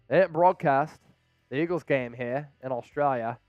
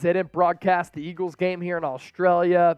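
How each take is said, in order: First: It is said in a put-on Australian accent. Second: It is said in the speaker's ordinary accent.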